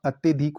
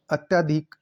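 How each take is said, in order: First: Said in the usual way. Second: अत्यधिक with a long yaa; mispronounced अत्यधिक. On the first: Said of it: "अत्यधिक होता है". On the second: Shown as a demonstration. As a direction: say अत्यधिक as "atyaa-dhik". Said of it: "अत्यधिक नहीं होता".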